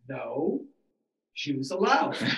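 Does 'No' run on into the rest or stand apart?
stands apart. 'No' stands apart before 'Jews allowed'.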